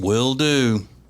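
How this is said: It is said in an annoyed, grudging tone. The speaker resents being asked to do it. "Whatever you want, shithead"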